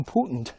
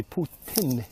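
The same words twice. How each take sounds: First: "Putin" with a swallowed ending, POOT-nd; common pronunciation. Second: "Putin" with a clear second syllable, poo-TIN; real pronunciation. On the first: Host showing what we call him, "Putin" as POOT-nd. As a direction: say "Putin" as POOT-nd, second vowel lost. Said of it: "because we say tut". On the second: Host correcting how it's said in English, "Putin" as a clear poo-TIN. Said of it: "but it's really Putin". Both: Shown as a demonstration.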